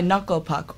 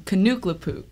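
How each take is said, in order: First: The name is pronounced the usual way. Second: The name is pronounced in an altered way. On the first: The speaker calls it right. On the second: The speaker calls it wrong.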